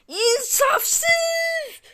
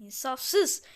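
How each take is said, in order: First: High, loud crying shout of outrage; outraged crying yell; furious wail. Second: Said in the usual way. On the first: Real, not acted. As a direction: wail it like you've been robbed. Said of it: "Çok sinirlendim".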